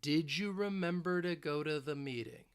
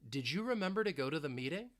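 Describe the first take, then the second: First: The sentence is spoken slowly. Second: The sentence is spoken fast. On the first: "Let's say it again, slowly" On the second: "if I want to speed it up"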